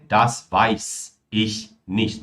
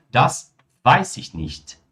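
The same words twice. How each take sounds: First: Das weiß ich nicht with each word apart; weiß ich said as two clean words; wrong separated form. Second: Das weiß ich nicht with weiß and ich run together as weißich; linked weiß ich. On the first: Teacher showing the form to avoid, words kept apart. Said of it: "Não é". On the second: Teacher showing the natural spoken form, ich joined to weiß. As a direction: ich glued onto weiß. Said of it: "mas sim". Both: Shown as a demonstration.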